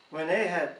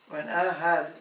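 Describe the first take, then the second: No difference in how they are said.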